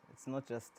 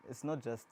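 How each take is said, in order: Both takes have the same delivery.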